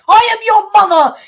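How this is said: It is said as a firm, commanding statement.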